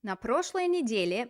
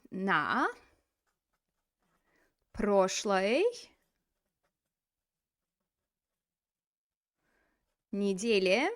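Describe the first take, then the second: First: Said in the usual way. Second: Long pauses between На, прошлой and неделе; word by word. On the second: Shown as a demonstration. Teacher building the phrase for students, На, прошлой, неделе spaced far apart. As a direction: give На прошлой неделе one word at a time.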